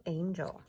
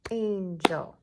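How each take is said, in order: First: Said in the usual way. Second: "Angel" in two loud beats, an-gel; "Angel" with both syllables punched; clapped-out syllables. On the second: Shown as a demonstration. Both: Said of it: "Two syllables for angel".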